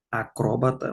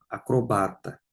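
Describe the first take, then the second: First: Acróbata stressed on the second syllable CRÓ; wrong stress. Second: Acrobata stressed on the third syllable BA; correct stress. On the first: Teacher shows the class the wrong stress, Acróbata on CRÓ. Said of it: "não". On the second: Teacher gives students the correct stress, Acrobata on BA. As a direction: say Acrobata as a-cro-BA-ta, the right way. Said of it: "acróbata não, acrobata". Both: Shown as a demonstration.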